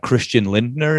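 The name is said with English pronunciation.

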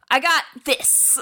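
It is said in an odd, strange way. The speaker calls it wrong. "But he doesn't say it that way. It's really weird"

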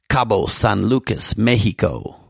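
It is said with a Spanish accent.

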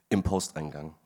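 The phrase carries an odd, misplaced stress. The speaker calls it wrong.

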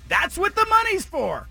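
It is said imitating Don Draper's voice.

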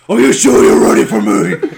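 It is said in a growly Batman voice.

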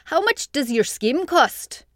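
It is read in a put-on Scottish-sounding accent. "Oh, I think that's Scottish"

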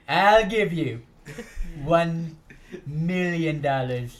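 It is said in an impersonated put-on voice.

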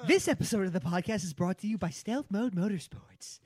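It is read with lively, interested expression.

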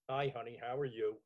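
The greeting sounds angry and mad. "Could be angry"

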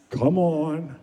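It is said in a flat, boring way.

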